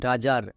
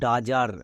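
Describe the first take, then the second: No difference in how they are said.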